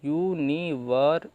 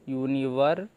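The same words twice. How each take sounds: First: Stretched out slowly; teacher sounding out the word slowly; slow demonstration. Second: Said in the usual way. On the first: Shown as a demonstration. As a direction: spell the sounds out for students. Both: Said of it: "इसका sound आ रहा है अर का".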